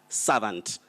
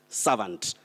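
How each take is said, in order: The two takes are said the same way.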